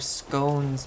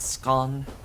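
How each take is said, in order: First: The O vowel is long. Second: The O vowel is short. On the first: This is how people in the speaker's area say it. "in my part of the world, those are scones" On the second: This is how people in Britain say it. "pronounced with a short O"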